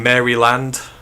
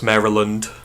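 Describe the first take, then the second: First: The name gets a British-style reading of the spelling. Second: The name gets the local American pronunciation. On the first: This is how the name reads to a Brit. The speaker calls it wrong. "when I first started this pod when I used to say Maryland" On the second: This is how the name is really said. The speaker calls it right. "Now I know it's Maryland"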